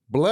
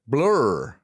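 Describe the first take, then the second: First: The word sounds like 'blah', with no r. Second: The word sounds American, with an r sound. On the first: "It sounds like I'm just saying blah" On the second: "That sounds very American now"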